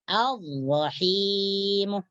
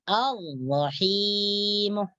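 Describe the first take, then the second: No difference in how they are said.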